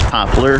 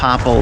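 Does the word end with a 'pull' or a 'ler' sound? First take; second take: ler; pull. First: The word ends with a 'ler' sound. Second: The word ends with a 'pull' sound. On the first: This is the standard way of saying it. "The real pronunciation is poplar" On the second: This is the local way of saying it. "I call them popple"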